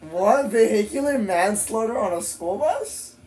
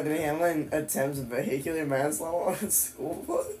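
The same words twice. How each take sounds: First: High-pitched, astonished questioning; stunned question, pitched up to "bus"; incredulous. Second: Softer questioning read, rising at the end; baffled question, lifting on "bus"; puzzled reading. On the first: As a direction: repeat it in open disbelief, rising at the end. Repeats the headline in disbelief. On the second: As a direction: read it out in growing disbelief. Reads a shocking headline, puzzled. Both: Real, not acted.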